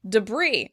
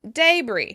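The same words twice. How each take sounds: First: The stress is on the second syllable. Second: The stress is on the first syllable. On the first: This is the American pronunciation. "We're stressing the word on the second syllable" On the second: This is the British pronunciation. "the British pronounce the day really clearly"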